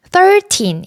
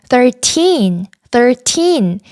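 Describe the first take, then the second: First: Put-on "thirteen" stressed on THIR, weaker teen; stress on first syllable. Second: Put-on "thirteen" with TEEN raised and stressed. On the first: Teacher showing learners what to avoid, first-syllable stress. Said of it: "이렇게 발음하시는 게 아니라". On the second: Teacher modelling it for learners, stress on final syllable. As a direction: put the weight on the end of "thirteen". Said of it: "뒤에 나오는 틴에 강세를 주어서". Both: Shown as a demonstration.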